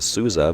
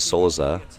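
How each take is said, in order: First: The name is said in an anglicized way. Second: The name is said the Portuguese way. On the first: The speaker calls it wrong. "I've been calling him Souza" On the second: The speaker calls it right. "the proper way to pronounce it in Portuguese is Souza"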